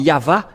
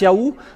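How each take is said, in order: First: The name is said with a v sound. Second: The name is said with an oo sound. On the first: The speaker calls it right. "C'est toujours le V, la vraie épellation. C'est pourquoi c'est Yava" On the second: The speaker calls it wrong. "ceux qui prononcent Yahou ne sont jamais délivrés du péché"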